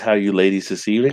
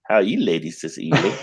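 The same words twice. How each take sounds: First: It is read in a plain, ordinary voice. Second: It is said in a smooth, put-on charmer's voice.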